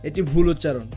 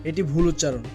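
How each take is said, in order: The two takes are said the same way.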